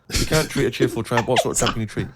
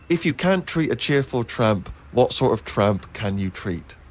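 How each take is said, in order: First: It is said quickly, as a rapid tongue twister. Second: It is said at a normal, unhurried pace.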